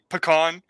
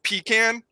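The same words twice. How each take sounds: First: "pecan" said puh-KAHN; short first syllable in "pecan", stressed KAHN; puh-KAHN pronunciation. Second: "pecan" said pee-CAN; short A at the end of "pecan"; pee-CAN pronunciation. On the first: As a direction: say "pecan" with a broad AH ending. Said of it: "I actually do say pecan". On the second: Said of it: "in the video I said pecan". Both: Shown as a demonstration.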